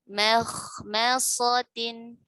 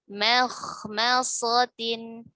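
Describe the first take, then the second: The two takes are said the same way.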